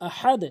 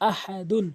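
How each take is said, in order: First: The word stops short on a final 'd'. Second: The word ends with a nasal 'un' syllable. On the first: The reciter stops at this word. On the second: The recitation continues without stopping.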